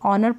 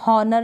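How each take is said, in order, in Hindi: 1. शब्द सीधे एक स्वर ध्वनि से शुरू होता है। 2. शब्द की शुरुआत में एक साफ़ सुनाई देने वाली h ध्वनि है। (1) "ऑनर पढ़ेंगे" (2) "हॉनर नहीं पढ़ेंगे"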